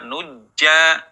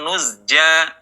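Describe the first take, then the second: First: The middle sound turns into a j. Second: The middle sound is z followed by j. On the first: "tidak dibaca nujja" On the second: "atau nuzja"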